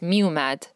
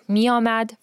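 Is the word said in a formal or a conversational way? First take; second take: conversational; formal. First: It uses the reduced, everyday spoken vowel. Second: It uses the full, formal written-style vowel. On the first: This is the form used in everyday speech. "in conversational, you will say miomad as miumad" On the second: This is the form used in written or poetic language. "usually in conversational, you will say miomad as miumad"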